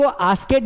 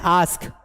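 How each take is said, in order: First: "आस्केड" with an extra "-ed" syllable after आस्क; mispronounced ask. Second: "आस्क" as one syllable ending in "sk"; correct pronunciation. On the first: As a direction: say "आस्केड", adding a wrong "ked" ending. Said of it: "इसको आस्केड नहीं पढ़ना है". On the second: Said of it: "इसको आस्केड नहीं पढ़ना है, आस्क". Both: Shown as a demonstration.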